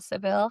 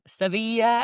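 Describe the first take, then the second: First: The name is said the English way, ending in -vil. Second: The name is said the Spanish way, ending in -ya. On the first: This is how the speaker would naturally say it. "how I want to say" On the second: This is how the locals say it. "as they say"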